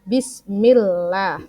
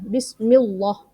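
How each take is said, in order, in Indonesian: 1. Bunyi l-nya ringan dan tipis. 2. Bunyi l-nya berat dan tebal. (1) "jadi dia tipis" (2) "bukan Bismillah"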